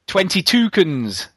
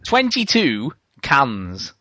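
First: The words are said quickly and run together. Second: The words are said slowly and separately. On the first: It sounds like the name of a bird. "But if you say it quickly" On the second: It is the number and the word cans. "That's two twos and then the word cans"

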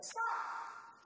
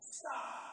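First: It is said loudly. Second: It is said more softly.

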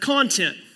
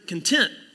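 First: The stress is on the first syllable. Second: The stress is on the second syllable. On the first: It is a noun: the stuff inside something. "if you put the emphasis on the first syllable, it's the word content. And that's a noun" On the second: It is an adjective: a state of inner peace. "If you put the emphasis on the second syllable, though, it becomes a verb"

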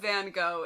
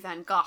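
First: The name is said in the common English style. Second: The name is said in a French-sounding style. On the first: "I believe Van Gogh is wildly accepted" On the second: "If you're going to be all French and kooky like that"

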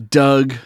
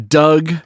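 Both takes have the same delivery.

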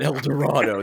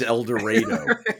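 First: It uses the standard, non-local pronunciation of the name. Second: It uses the local Kansas pronunciation of the name. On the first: This is not how the town's name is said. The speaker calls it wrong. "It's not El Dorado. They changed it" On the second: This is how the town's name is actually said. The speaker calls it right. "he didn't mispronounce it. It is El Dorado"

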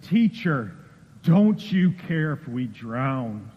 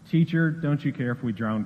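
First: It is yelled loudly, sounding scared. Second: It is said calmly, without raising the voice. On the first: The asker is terrified of drowning. The speaker calls it right. "I told you I was going to yell" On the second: It reads like a plain, unemotional question. The speaker calls it wrong. "I don't think that's how it was"

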